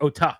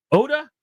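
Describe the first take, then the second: First: Ota with a crisp t and stressed "TAH"; hard ta. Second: Oda with a soft d and unstressed ending; relaxed "OH-duh" ending on Oda. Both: Shown as a demonstration. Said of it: "It's the ta".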